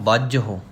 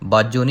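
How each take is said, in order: First: The word ends in an h followed by u. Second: The word ends in a plain o sound. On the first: The speaker calls it right. "बाजहु ते जला के हाहे नूं औंकड़" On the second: The speaker calls it wrong. "बाजो नहीं कहना"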